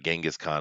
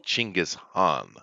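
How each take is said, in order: First: The name starts with a 'j' sound. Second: The name starts with a 'ch' sound. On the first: This is the familiar Western form of the name. The speaker calls it wrong. "his name is not Genghis Khan at all" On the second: This is the name's actual form. The speaker calls it right. "Chinggis Khan would be the way you pronounce it"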